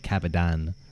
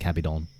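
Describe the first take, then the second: First: The last syllable sounds like "dan". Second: The last syllable sounds like "don". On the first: The speaker calls it wrong. "I think I said Cabedan rather than Cabedon" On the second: The speaker calls it right. "rather than Cabedon"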